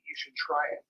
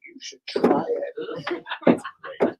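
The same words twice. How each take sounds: First: Said in the usual way. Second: Very slow, high, whispered tease; teasing whisper. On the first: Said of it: "It's like". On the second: Retold or imitated. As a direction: coax them slyly in a whisper. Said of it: "I'm like".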